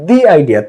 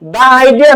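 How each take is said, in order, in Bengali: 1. 'The' উচ্চারণ হয় লম্বা 'ee' স্বরধ্বনি দিয়ে। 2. 'The' উচ্চারণ হয় ছোট 'uh' স্বরধ্বনি দিয়ে। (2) "দা আইডিয়া নাকি"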